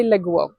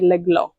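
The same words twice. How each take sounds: First: Leglo with both L's dark, almost "legwo"; leglo, L's pulled back toward W; hard Bulgarian L. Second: Leglo with both L's light and soft; leglo, tongue-tip L; soft clear L. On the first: Teacher shows her own hard everyday L. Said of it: "It's very L, hard". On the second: Teacher shows the soft L Bulgarians never use. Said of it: "It's very soft". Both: Shown as a demonstration.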